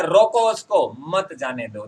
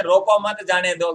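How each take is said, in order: First: Slow "रोको उसको", break, "मत जाने दो"; "रोको उसको" and "मत जाने दो" as two commands; pause at the comma. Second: "रोको मत जाने दो" in one breath; unbroken "रोको मत जाने दो"; no comma pause. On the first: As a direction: stop after "रोको उसको", then give "मत जाने दो". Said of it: "लेकिन यहाँ पर क्या है". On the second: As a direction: run "रोको" straight into "मत जाने दो". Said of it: "अगर ये कॉमा नहीं होता". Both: Shown as a demonstration.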